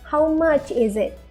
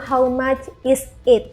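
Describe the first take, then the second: First: The words 'is' and 'it' run together smoothly. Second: Each word is said separately, with breaks. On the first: The speaker calls it right. "Kita sambungkan bunyi is dengan it di belakangnya" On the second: The speaker calls it wrong. "Jangan bilang how much is it, karena itu nggak biasa kita dengar"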